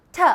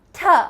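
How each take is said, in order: First: The t is made with the tongue behind the teeth. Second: The t is made with the tongue behind the teeth.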